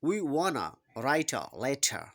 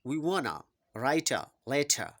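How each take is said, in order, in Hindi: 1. 'want to' को जोड़कर 'wanna' बोला जाता है। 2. 'want to' को जोड़कर 'wanna' बोला जाता है।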